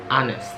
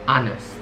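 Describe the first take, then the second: Both takes have the same delivery.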